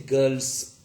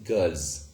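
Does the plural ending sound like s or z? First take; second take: s; z. First: The plural ending is a voiceless s sound. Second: The plural ending is a voiced z sound. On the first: The speaker calls it wrong. "So we do not say girls" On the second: The speaker calls it right. "rather we say girls"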